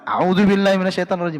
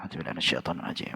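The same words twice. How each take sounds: First: It is said loudly. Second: It is said softly.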